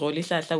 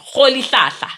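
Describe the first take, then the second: First: The name is pronounced loosely, without care. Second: The name is pronounced carefully, sound by sound. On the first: The speaker calls it wrong. "No, let me pronounce it correctly" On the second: The speaker calls it right. "let me pronounce it correctly"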